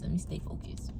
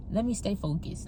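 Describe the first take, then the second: First: Breathy whisper, no voice at all; whispered to herself. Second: Murmured self-reminder, a little quieter; softly to herself. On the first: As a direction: whisper it to calm yourself down. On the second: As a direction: talk yourself back on track, low. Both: Real, not acted.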